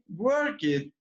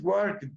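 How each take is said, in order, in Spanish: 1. La terminación en pasado se pronuncia fuerte y por separado. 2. La terminación en pasado es suave y se une a la palabra siguiente. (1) "tan marcado como nosotros" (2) "No lo dice así tan marcado"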